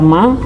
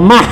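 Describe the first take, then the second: First: The word ends in a plain vowel, no h. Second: The word ends with an audible h sound. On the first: The speaker calls it right. "ini dibaca ma" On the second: The speaker calls it wrong. "tidak dibaca mah, tidak ada bunyi H di belakang"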